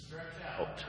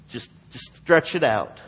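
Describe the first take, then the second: First: Breathy whisper of Jesus' words; whispered command. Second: Said in the usual way. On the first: Shown as a demonstration. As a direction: whisper it like a gentle order.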